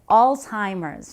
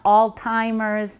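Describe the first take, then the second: First: The first syllable sounds like 'alz'. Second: The first syllable sounds like 'all'. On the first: The speaker calls it right. "that's how you pronounce it" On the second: The speaker calls it wrong. "not all timers"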